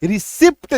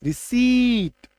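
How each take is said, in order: First: "रिसिप्ट" with the p sounded, risipt; wrong with p. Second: "रिसीट" slow, long ee, no p; silent p. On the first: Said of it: "नहीं तो क्या बोलेंगे". ("रिसिप्ट" में पी बोलकर गलत उच्चारण) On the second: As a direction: stretch out "रिसीट", drop the p. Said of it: "इसका सही उच्चारण क्या है". ("रिसीट" धीरे, बिना पी के) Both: Shown as a demonstration.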